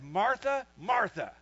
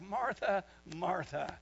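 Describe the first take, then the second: First: It is said in a harsh, aggressive tone. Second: It is said in a light, joking tone. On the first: Stop bothering your sister. "kind of aggro" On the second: Relax, it is no big deal. "in kind of a joking type way"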